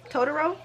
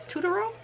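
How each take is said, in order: First: "Totoro" with first syllable as "toe", rising; questioning "Totoro" said with a long o; trial pronunciation. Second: "Totoro" with first syllable as "too", rising high; questioning, high "Totoro" said with an oo; trial pronunciation. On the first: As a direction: try "Totoro" as "TOE-duh-ro?". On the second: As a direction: try "Totoro" as "TOO-duh-ro?". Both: Shown as a demonstration. Trying out ways to say Totoro.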